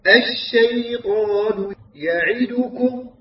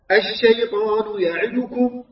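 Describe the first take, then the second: First: "الشيطان يعدكم" ببطء مع كسرة عين كاملة; رتّل "الشيطان يعدكم" بحركات تامة الزمن; كسرة تامّة. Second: "الشيطان يعدكم" مع خطف حركات "يعدكم"; رتّل ثم أسرع في كسرة "يعدكم"; اختلاس الكسرة. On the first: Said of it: "هكذا". (تلاوة "الشيطان يعدكم" الصحيحة المتأنية) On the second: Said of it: "لا". (تلاوة "الشيطان يعدكم" بعين ناقصة الكسرة) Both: Shown as a demonstration.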